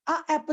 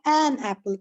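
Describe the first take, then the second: First: A apple said as the incorrect form, plain a before apple; wrong form. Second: An apple with an stressed and falling. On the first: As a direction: model the mistake a apple. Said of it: "नहीं लिख सकते हैं". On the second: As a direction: lean on an in an apple. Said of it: "हमें लिखना होता है". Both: Shown as a demonstration.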